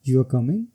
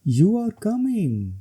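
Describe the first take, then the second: First: It has a questioning tune. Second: It has an exclaiming tune. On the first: It asks whether someone is coming. "ये question है।" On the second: It expresses strong feeling. "ये exclamation है।"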